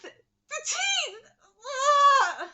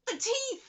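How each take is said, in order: First: High, loud cry of the teeth; emphatic shout. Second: Said in the usual way. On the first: Real, not acted. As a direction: yell The teeth! in outrage.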